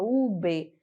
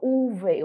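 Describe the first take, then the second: First: The middle consonant is a b sound. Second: The middle consonant is a v sound. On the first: The speaker calls it right. "eu falo U B" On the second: The speaker calls it wrong. "Eu não falo U V"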